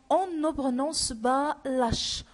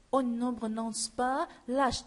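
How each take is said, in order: First: "On ne prononce pas l'H" said a little louder, stressing "On"; emphatic rule. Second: Said in the usual way. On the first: Shown as a demonstration. Teacher stating the rule to pupils, firmly. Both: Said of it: "C'est-à-dire quoi?".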